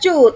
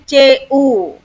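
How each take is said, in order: First: It is said as one single syllable. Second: It is said as two separate letter names. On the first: The speaker calls it wrong. "Jangan dibaca cu" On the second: The speaker calls it right. "tapi C U"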